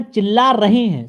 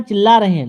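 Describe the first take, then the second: First: "रही" ending in long ee, ra-hee; corrected agreement rahee. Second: "रहे" ending in e, ra-he; wrong agreement rahe. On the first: Teacher reading the corrected sentence, "रही" as ra-hee. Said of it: "तो चिल्ला रही हैं". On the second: Teacher reading the faulty sentence, "रहे" as ra-he. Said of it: "शब्द लड़कियां आया है तो". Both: Shown as a demonstration.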